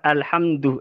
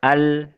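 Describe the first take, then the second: First: The word ends with a u vowel. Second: The word ends with an i vowel. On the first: "lafat alhamdu" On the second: "mengecir dalil hamdi"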